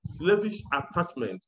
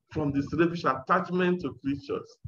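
First: Slavish leaned on, first syllable pushed; stress on slavish. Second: Said in the usual way. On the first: Shown as a demonstration. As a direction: press hard on Slavish, then let attachment fall. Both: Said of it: "Slavish is an emphasis there".

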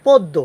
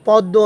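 First: পদ্য with a closed o, "poddo"; correct pronunciation. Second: পদ্য with an open "aw", "pawddo"; wrong pronunciation. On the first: Teacher answers the question, পদ্য pronounced "poddo". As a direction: round the first vowel of পদ্য to o. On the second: Teacher shows what not to say, পদ্য mispronounced "pawddo". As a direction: open up the first vowel of পদ্য. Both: Shown as a demonstration. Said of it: "না বলে হবে কি".

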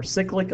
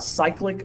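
First: "cyclic" with a short i, SICK-lik; own habitual pronunciation. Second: "cyclic" with a long i, SIKE-lik; alternative pronunciation. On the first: Teacher offering both names for electron flow, "cyclic" as SICK-lik. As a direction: make "cyclic" start like sick. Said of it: "I've always pronounced it cyclic". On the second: Teacher offering both names for electron flow, "cyclic" as SIKE-lik. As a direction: make "cyclic" start like cycle. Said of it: "Some people pronounce that cyclic". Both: Shown as a demonstration.

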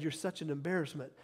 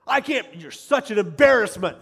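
First: Said in the usual way. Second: Loud, higher exasperated outburst; berating parent. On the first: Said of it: "has never said". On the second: Retold or imitated. Parent at a child's game, loudly berating the kid. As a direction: scold harshly, exploding on the key word. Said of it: "like some parents".

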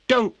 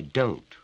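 First: Sharp sudden cry; cried out. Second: Said in the usual way. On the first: A narrator's reading. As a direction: blurt it out in alarm. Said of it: "cried Betty". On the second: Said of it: "why should a visitor cry".

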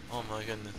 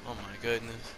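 Both takes have the same delivery.

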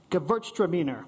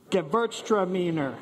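First: Gewürztraminer said carefully, German style, falling at the end; Gewürztraminer with a hard G sound, gə-VURTS-tra-mee-ner. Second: Gewürztraminer said clearly as a model, with a falling end; repeat Gewürztraminer. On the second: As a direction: model Gewürztraminer for the class to echo. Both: Shown as a demonstration. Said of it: "Everybody say it".

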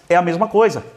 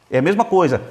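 Both takes have the same delivery.

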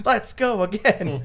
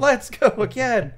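First: High, slow, keen call to go on; a hint of a tireless actress; imitating Mako's actress asking to go again; eager actor. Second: High, slow and louder, more insistent; hammed-up keen repeat; imitating Mako's actress insisting on another take; eager actor, pushed harder. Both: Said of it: "get back and be like".

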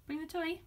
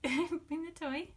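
First: Said in the usual way. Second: Slow drawn-out command. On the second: Real, not acted. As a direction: stretch out "Bring the toy" slowly, leaning on "bring". Coaxing dog to fetch.

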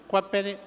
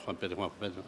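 First: Said in the usual way. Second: Very low, hushed mumble; under-the-breath repetition; muttered list-checking. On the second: Acted. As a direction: murmur the name to yourself while searching. Purga searches his list.

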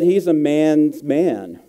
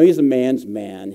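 First: He's a man's man, drawn out slowly with every word leaned on; savoring the phrase, slow and emphatic; slow, weighty emphasis. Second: Said in the usual way. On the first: Real, not acted.

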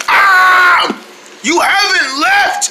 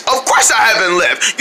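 First: Startled high cry; surprised. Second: Said in the usual way. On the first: Acted. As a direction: jump at the sight. Startled on waking.

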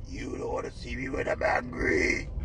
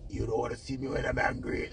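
First: Much lower, slow, whispered; low whispered threat. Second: Much softer, quoted warning; mock hushed threat. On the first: Retold or imitated. Vlogger hamming [name]'s warning in a low whisper. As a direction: drop deep and whisper the warning. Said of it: "quoting [name] again". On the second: Vlogger quoting [name]'s line about her ex, softly. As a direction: tuck it down to a quiet threat. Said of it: "the Ras choke her say".

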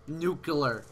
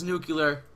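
First: Nuclear said as "nuke-uh-ler", with no y sound; retrying nuclear as nuke-uh-ler; corrected nuclear. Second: Nuclear said as "nuke-yuh-ler", with an extra y sound; stumbling on nuclear, saying it nuke-yuh-ler; mispronounced nuclear. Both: Real, not acted. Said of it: "I totally said that wrong for sure".

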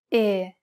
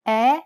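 First: Narrow, closed Italian E. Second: Loud, wide open Italian E. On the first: Teacher repeating the vowel contrast, E as a closed narrow sound. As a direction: keep E narrow and close, without a glide. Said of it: "followed by a closed E". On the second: Teacher repeating the vowel contrast, E as a loud open eh. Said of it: "Compare the open E". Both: Shown as a demonstration.

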